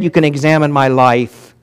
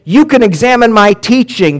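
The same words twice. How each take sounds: First: Said in the usual way. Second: You can examine my teaching, lifted higher and louder; raised emphatic quote. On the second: Acted. Preacher quoting Paul to congregation, emphatic and raised. Paul's two claims contrasted.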